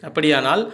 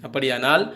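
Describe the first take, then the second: No difference in how they are said.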